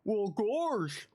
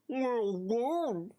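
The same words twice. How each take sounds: First: Said in the usual way. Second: Slow, odd cartoon toad voice; slow toad-voiced reply. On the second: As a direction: stretch it out like a goofy toad. Second take in Toad voice.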